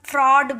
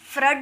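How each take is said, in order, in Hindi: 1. यह स्वर गोल 'aw' ध्वनि है। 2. यह स्वर छोटा 'uh' ध्वनि है। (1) "तो इसे हम फ्रॉड बोलेंगे" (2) "फ्रड नहीं बोलेंगे"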